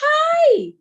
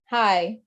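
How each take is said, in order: First: It is said with lively, excited energy. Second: It is said with flat, low energy.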